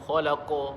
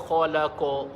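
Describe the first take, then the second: Both takes have the same delivery.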